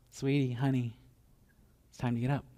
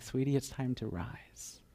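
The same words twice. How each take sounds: First: Soft and coaxing, voiced; gentle bedside nudge; tender wake-up. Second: Slow tender whisper. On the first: Parent waking daughter. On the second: Acted. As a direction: breathe it close to her ear. Jesus waking the girl.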